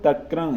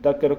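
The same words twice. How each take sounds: First: The final vowel is nasalized. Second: The final vowel is plain, not nasalized. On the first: "तक्र इति अनुनासिक करके उच्चारण करती है" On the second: "निरनुनासिक शब्द तक्र"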